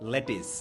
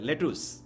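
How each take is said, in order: First: The last syllable sounds like 'tis'. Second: The last syllable sounds like 'tus'. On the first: The speaker calls it right. "ওরা বলে কি? লেটিস" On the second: The speaker calls it wrong. "ইংরেজরা লেটুস বলে না"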